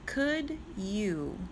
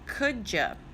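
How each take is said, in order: First: The words are separate, ending in a full 'you'. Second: The words run together, ending in 'ya'.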